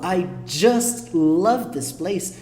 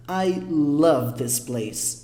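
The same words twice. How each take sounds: First: "I just love this place" slow, with heartfelt weight on "just"; more feeling. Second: Said in the usual way. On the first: Shown as a demonstration. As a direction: lean into "just" with real affection. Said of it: "eu coloquei mais sentimento, mais força". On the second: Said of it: "a diferença dessa frase pra essa é um sentimento".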